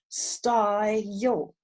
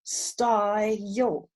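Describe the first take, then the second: First: The word is said as two syllables. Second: The word is said as two syllables.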